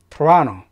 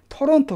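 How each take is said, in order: First: The middle syllable is stressed. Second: The syllables are even, with no stressed middle. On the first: The speaker calls it right. "라의 강세가 들어가면서 토라노라고 발음을 해줘요" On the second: The speaker calls it wrong. "실제 캐나다인들이나 미국인들은 토론토 그렇게 말하지 않죠"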